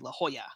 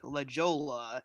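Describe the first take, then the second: First: The J is said like an English H. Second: The J is said like an English J. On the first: The speaker calls it right. "but it's actually La Jolla" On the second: The speaker calls it wrong. "sounds like La Jolla, L A J O L L A"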